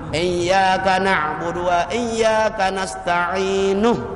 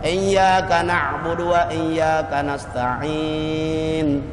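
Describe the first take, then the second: First: The last word ends with an added vowel. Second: The last word stops on a bare consonant. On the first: The verse is joined to the next one. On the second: The reciter pauses at the end of the verse.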